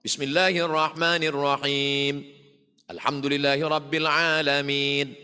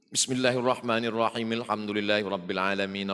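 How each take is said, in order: First: Vowels are lengthened with a pause between phrases. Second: Both phrases run together in one breath. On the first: This follows the recommended practice of stopping at each verse. "membaca dengan mad dan waqaf" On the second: The whole chapter is recited in a single breath. "Tarik nafas panjang"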